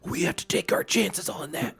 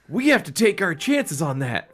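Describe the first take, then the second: First: It is said in a low, hushed voice. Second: It is said in a normal speaking voice. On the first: The speaker calls it right. "Frank said in a, in a low voice" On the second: The speaker calls it wrong. "Fucked up the voices again"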